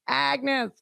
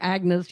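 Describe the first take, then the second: First: The name is said in a New York accent. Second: The name is said in a neutral accent.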